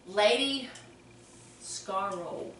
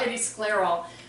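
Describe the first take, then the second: First: The second word sounds like 'scarole', without an L. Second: The second word sounds like 'sclerol', with an L. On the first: The speaker calls it wrong. "Did I pronounce that right?" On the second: The speaker calls it right. "I'd say sclerol"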